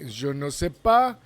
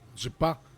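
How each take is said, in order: First: All four syllables are pronounced fully. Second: It is squeezed into two quick syllables. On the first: "usually people we will say je ne sais pas" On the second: "Some other people would say je pas"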